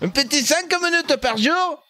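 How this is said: It is said in a put-on Marseille accent.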